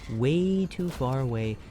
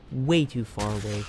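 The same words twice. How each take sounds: First: WAY stretched out long; slow "way too far away", lingering on "way"; drawn-out emphasis. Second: Said in the usual way. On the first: Real, not acted. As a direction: draw out "way" to stress the distance. Repeats phrase drawn out.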